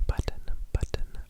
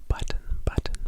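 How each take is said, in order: The two takes are said the same way.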